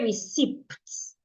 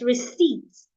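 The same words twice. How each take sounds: First: A P sound is pronounced before the T. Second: No P sound is pronounced before the T. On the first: The speaker calls it wrong. "The P is silent. Do not say receipts" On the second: The speaker calls it right. "It's receipts"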